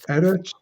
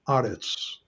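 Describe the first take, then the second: First: The first vowel is an 'eh' sound. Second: The first vowel is an 'ah' sound. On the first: This is the ordinary form of the word. "the eretz is heightened" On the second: This is the form used at a pause. "heightened to aretz"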